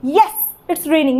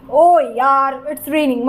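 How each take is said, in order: First: Happy. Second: Exasperated groan of ओ यार, then a sinking grumble; annoyed. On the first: Teacher demonstrates being happy it is raining, pleased. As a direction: celebrate the rain briefly. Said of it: "आप खुश हो कि बारिश हो रही है". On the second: Teacher demonstrates being cross at rain, annoyed. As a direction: complain about the rain, letting it drop. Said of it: "मतलब आपको गुस्सा आ रहा है". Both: Shown as a demonstration.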